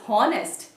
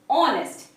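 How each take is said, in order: First: The word begins with an audible h sound. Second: The word begins with a vowel, h silent. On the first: The speaker calls it wrong. "Many of them pronounce this as honest. That's horrible" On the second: The speaker calls it right. "the correct pronunciation is honest"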